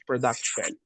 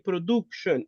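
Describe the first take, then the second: First: The U is said with an English vowel sound. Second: The U is said with a Spanish vowel sound. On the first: The speaker calls it right. "We go for the English" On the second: The speaker calls it wrong. "The letter U is not the Spanish sound. We don't say production. Uh-uh, that's Spanish"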